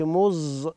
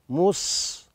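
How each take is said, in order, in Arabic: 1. الصامت مجهور، يطنّ كالزاي. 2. الصامت مهموس، والنفس يجري معه. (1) "ما نقولش مز" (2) "تهمس الصاد من حروف الهمس، يعني تجري النفس معاها"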